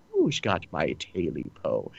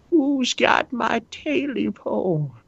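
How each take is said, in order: First: Soft, low creature murmur; leprechaun. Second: High, slow eerie creature call; creepy creature voice. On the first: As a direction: whisper it low like a lurking creature. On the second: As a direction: moan it like a monster in the dark. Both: Acted. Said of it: "He sounds like the leprechaun".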